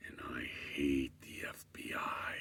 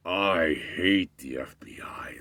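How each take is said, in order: First: Low, hissed whisper. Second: Slow emphatic rant. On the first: Guy staring at the narrator, low hostile whisper. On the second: Guy repeats it aloud. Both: Retold or imitated.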